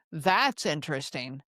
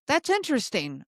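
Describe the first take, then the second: First: Low-pitched, doubtful reaction; unimpressed tone. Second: Interested tone. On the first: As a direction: drop it low, leaning on "That's". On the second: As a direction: say it as if truly intrigued. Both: Shown as a demonstration. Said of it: "It's the tone".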